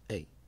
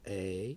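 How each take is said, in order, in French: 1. La voyelle est un e fermé. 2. La voyelle est un e ouvert. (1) "Donc c'est fermé" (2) "c'est le son ouvert"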